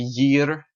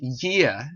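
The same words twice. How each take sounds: First: The final R sound is clearly pronounced. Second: The final R sound is silent. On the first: "instead of the year" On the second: "In the er, there's no er"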